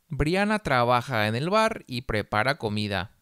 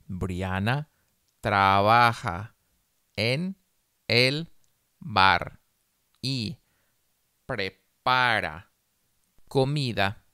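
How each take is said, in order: First: The sentence is read at a faster pace. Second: The sentence is read very slowly. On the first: "más rápido" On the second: "una vez muy despacio"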